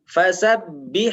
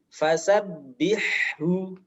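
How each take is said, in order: First: The word stops on the final consonant sound. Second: The word ends with a final vowel sound. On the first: The reading stops at this word. "Kemudian wakof" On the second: The reading continues without stopping. "Pertama dibaca harokatnya"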